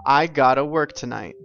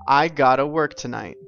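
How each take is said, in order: First: Have to is replaced by gotta. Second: Have to is replaced by gotta.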